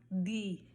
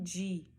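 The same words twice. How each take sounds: First: The d is said with a Spanish pronunciation. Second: The d is said with a Brazilian pronunciation. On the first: This is how it is said in Spanish. The speaker calls it right. "você vai falar di" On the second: This is how Brazilians usually say it. The speaker calls it wrong. "e não di, como nós costumamos falar"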